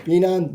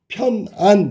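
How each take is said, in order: First: The word starts with a tense pp sound. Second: The word starts with an aspirated p sound. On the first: This imitates the original Chinese sound. "빼난 뭐 이렇게 썼단 말이야" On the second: This is the usual Korean reading. "원래는 편안 이래야 되는데"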